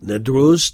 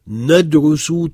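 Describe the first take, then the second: First: The word ends without a final vowel. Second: The word ends with a final vowel. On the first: This is ordinary reading or speech. "on ne la prononce pas" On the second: This is a rote classroom recitation. "en mettant une voyelle à la fin"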